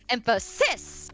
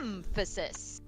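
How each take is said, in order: First: The stress is on the last syllable. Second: The stress is on the first syllable. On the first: "And then the last syllable" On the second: "you were putting the stress on the first syllable, it would be"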